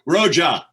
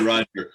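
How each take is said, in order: First: The name ends in an open 'ah' sound. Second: The name ends in a plain 'er' sound. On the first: This is how a friend used to say the name. "Bob called me Roja" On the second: This is the usual form of the name. "He wouldn't say Roger"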